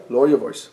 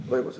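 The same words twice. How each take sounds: First: Said in the usual way. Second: Much softer, voice dropped right down; lowered voice. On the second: Shown as a demonstration. Preacher showing listeners how to speak low, much softer. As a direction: show them how quiet to go.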